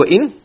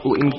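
First: "وَإِنْ" in full, "wa-in", rising; corrected reading. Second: "وَإِنْ" run together, roughly "win"; missing-sound misreading. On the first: Teacher correcting the text's missing noon, corrected full reading. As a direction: say "وَإِنْ" as two sounds, "wa-in". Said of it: "it's supposed to be". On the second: Teacher showing how the misprinted text reads, missing-sound misreading. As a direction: say "وَإِنْ" as one low syllable, "win". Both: Shown as a demonstration.

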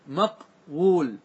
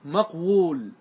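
First: مقول stretched very slowly as maqwul, the w sounded out; slowly drawn out. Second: Said in the usual way. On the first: Shown as a demonstration. Teacher spelling out the original form for students, very slow. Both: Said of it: "أصله إيش؟".

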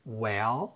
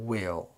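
First: "Well" with an open eh, lifting at the end; light short e. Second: "will" with an ih vowel, lower and falling; clear short i. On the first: (Well بكسرة خفيفة) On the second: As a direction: contrast it: "will" with a distinct i. (will بكسرة ظاهرة) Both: Shown as a demonstration. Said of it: "وننطقهم بالترتيب".

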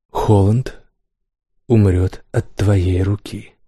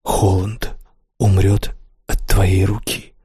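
First: Slow, heavy royal pronouncement; king's verdict. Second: Distant, slow, haunted echo; words echoing in his head; echoing memory. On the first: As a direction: hand down the sentence slowly. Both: A narrator's reading. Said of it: "Эти слова долго преследовали Келла".

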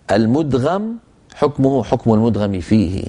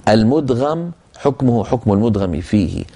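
The two takes are said the same way.

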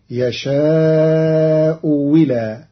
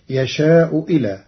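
First: يشاء ولا said slowly, with the hamza turned into a waw with kasra. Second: يشاء إلى with a full hamza before إلى. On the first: Teacher demonstrates Qalun's reading, hamza changed to waw, slowly drawn. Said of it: "فتصير". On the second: Teacher recites the usual reading, full hamza. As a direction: keep the hamza in "يشاء إلى" fully stopped. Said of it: "قرأ قالون كلمتي". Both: Shown as a demonstration.

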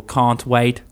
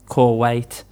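First: "can't wait" with a plain open A; "can't wait" said the standard way, clear A; standard English. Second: "core wait" with the A rounded to an O; "core wait", can't said like core; Birmingham accent. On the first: Teacher showing the standard version of "can't wait". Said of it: "So, for example". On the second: Teacher showing how her Birmingham accent says "core wait". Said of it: "We change A's for O's". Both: Shown as a demonstration.

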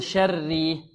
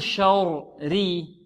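First: شري with a light doubled raa, "shar-ri"; ترقيق الراء. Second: شري slowly, the first raa wrongly heavy, "shor-ri"; تفخيم الراء. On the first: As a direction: keep both raas of شري thin. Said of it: "أو نقول". (ترقيق الراء المشددة في شري) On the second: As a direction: darken the doubled raa of شري as a mistake. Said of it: "هل نقول". (تفخيم الراء الأولى في شري خطأً) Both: Shown as a demonstration.

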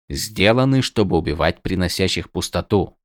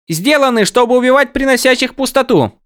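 First: Said in the usual way. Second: High excited voice; high character voice. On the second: Acted. Windel's take, high.

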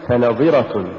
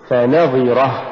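First: فنظرة run together, no push on ن; wrong stress. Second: فنظرة with ف set apart and نظرة pushed; push after fa. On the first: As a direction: say فنظرة quicker as one word. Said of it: "ولا تقل". (نطق فنظرة دون دفع النون) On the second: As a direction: lean on the ن in فنظرة. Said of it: "قل". (نطق فنظرة بدفع النون بعد الفاء) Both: Shown as a demonstration.

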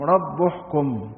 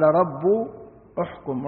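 First: رب احكم joined slowly as "rabbuhkum"; slow, linked "u" on the ب of رب; damma on the baa. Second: رب احكم in two pieces, "rabbu... uhkum"; split to show damma. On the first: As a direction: run رب straight into احكم with a "u". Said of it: "بضم الباء". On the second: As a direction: pause after رب, start احكم on "u". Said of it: "الألف المضمومة". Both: Shown as a demonstration.

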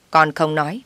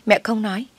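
First: Con pushed up with a rise on "Con không nói"; stress on con. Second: "mẹ" lifted high with a rise; stress on mẹ. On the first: Mother-in-law coaxing her son, leaning on "con". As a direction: lean on "con", lift it at the end. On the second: Mother-in-law coaxing her son, lifting "mẹ" high. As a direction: hit "mẹ" much higher, rising. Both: A narrator's reading. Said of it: "mother stresses each party".

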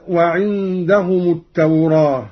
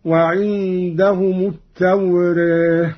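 First: Said in the usual way. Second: التوراة with its long a tilted toward e, "at-tawreh"; taqlil. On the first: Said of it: "قرأ قالون بالفتح والتقليل". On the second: Shown as a demonstration. Teacher demonstrating Qalun's reading, taqlil on التوراة, ending "-reh". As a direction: tilt the last vowel of التوراة halfway to e. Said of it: "والتقليل هكذا".

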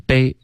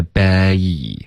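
First: 悲 said short, without the closing ee glide; wrong pronunciation. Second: 悲 drawn out into a clear final ee sound; full diphthong. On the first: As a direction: clip the diphthong in 悲. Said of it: "别发成悲". (把“悲”读短，省掉结尾的“一”音) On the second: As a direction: slowly stretch 悲 through both vowel halves. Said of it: "这结尾的一都一定要发得准". (把“悲”拉长，结尾的“一”读准) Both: Shown as a demonstration.

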